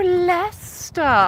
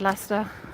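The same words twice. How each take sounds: First: The word is said slowly and drawn out. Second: The word is said short and clipped. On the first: An outsider finally understands the town name. "the most drawn out way I've ever heard the town said ever" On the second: A local says the town name naturally. "I'd said Leicester with a Leicester accent"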